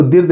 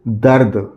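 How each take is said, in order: First: दिर्द with a short i sound after द, the wrong way; wrong reading. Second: दर्द with a short a after द, not i; right reading. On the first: Teacher shows children the wrong reading दिर्द. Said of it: "इसको दिर्द नहीं पढ़ेंगे". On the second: Teacher gives children the correct reading दर्द. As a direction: say दर्द plainly as the correct word. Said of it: "इसको पढ़ेंगे". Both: Shown as a demonstration.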